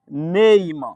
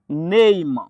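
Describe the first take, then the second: Both takes have the same delivery.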